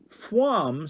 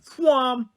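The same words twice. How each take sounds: First: It sounds like a questioning rise. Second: It sounds like a sharp exclamation.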